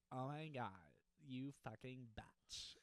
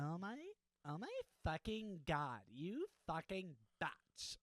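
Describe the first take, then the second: First: Put-on low valley girl. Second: Put-on higher, louder valley girl, slow at the end; a bratty valley girl squeal; valley girl gasp, higher than the first try. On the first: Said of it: "too much bass in it". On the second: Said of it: "That's a little better". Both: Shown as a demonstration.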